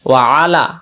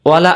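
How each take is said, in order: First: It is split into two separate words. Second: The syllables run together as one word. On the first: It means 'and upon'. The speaker calls it right. "আর যদি বলি ওয়া আলা" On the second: It would mean 'and not'. The speaker calls it wrong. "আমরা বলে ফেলি ওয়ালা আলী মুহাম্মদ"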